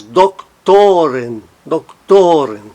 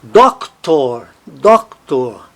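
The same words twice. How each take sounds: First: "doctoren" with a long, strong TO; stress on TO. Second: "Doctor" with a strong DOC, weak tor; stress on DOC. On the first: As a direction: shift the weight to to in "doctoren". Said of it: "Ele tônico no plural". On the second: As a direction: hit the first syllable of "Doctor". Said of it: "Átono". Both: Shown as a demonstration.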